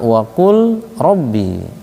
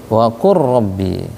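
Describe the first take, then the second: First: The l is pronounced before rabbi. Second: The l merges into a doubled r. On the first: "Ada kalimat waqul rabbi" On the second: "dibacanya waqur rabbi idgham"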